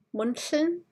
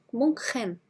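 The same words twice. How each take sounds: First: "Munchen" with sh in place of ch; "Munchen" said as "Munshen"; with a sh sound. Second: "Munchen" with a soft German ch in the middle. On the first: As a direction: swap the ch of "Munchen" for a plain sh. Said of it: "Pronounce it with a sh sound". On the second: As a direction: breathe the ch of "Munchen" softly, German style. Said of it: "Sounds like the German soft C H sound". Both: Shown as a demonstration.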